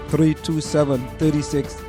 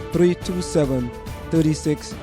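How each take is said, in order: Both takes have the same delivery.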